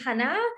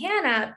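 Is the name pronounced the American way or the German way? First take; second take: German; American. First: The name is pronounced the German way. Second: The name is pronounced the American way. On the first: "My German side call me Hannah" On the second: "my American side call me Hannah"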